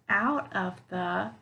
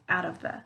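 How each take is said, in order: First: The three words are said separately. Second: The three words are linked together. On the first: The speaker calls it wrong. "instead of saying out of the" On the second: The speaker calls it right. "we'll say out of the"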